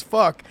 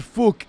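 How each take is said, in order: First: Said in the usual way. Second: "fuck" said Irish-style as "fook", with a rounded vowel; a quick Irish "fuck" like "fook", rounded and a touch louder; Irish accent. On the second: Retold or imitated. Co-host imitating the fighter's accent: Irish "fuck" as "fook". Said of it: "when he said it in his accent".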